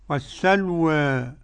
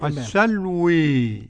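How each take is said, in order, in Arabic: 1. الحركة الأخيرة ممالة قليلاً نحو 'e'. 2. الحركة الأخيرة ممالة كثيراً نحو 'ee'. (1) "قرأ بالفتح والتقليل ورش" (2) "حمزة والكسائي وخلف العاشر بالإمالة"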